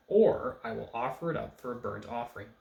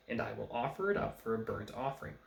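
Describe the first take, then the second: First: "Or" punched loud at the start; loud, pointed "Or", then reading on; stress on OR. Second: Said in the usual way. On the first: Shown as a demonstration. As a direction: lean hard on the opening "Or". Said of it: "can be either "and" or the word "or". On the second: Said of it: "in most of our translations it says".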